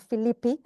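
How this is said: It is pronounced the Greek way.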